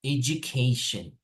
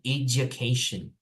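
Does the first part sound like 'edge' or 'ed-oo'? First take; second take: edge; edge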